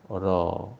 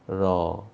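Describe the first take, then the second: The two takes are said the same way.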